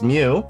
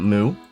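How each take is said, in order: First: The vowel sounds like 'mew', with a y-glide. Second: The vowel sounds like 'moo', without a y-glide. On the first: This is how it is said in the States. "Mew, like a cat" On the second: This is how it is said in other parts of the world. "other parts of the world, they pronounce this character as uh, Moo"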